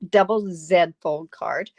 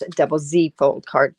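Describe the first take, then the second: First: The letter Z is said as zed. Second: The letter Z is said as zee.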